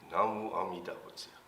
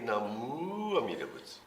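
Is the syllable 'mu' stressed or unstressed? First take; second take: unstressed; stressed. First: The syllable 'mu' is given no special emphasis. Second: The syllable 'mu' is given strong emphasis. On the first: The speaker calls it right. "It's just" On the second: The speaker calls it wrong. "you don't have to put the emphasis on the mu"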